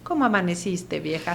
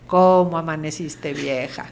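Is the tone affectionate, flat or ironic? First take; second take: affectionate; flat. First: It is said in a warm, affectionate tone. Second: It is said in a flat, routine tone.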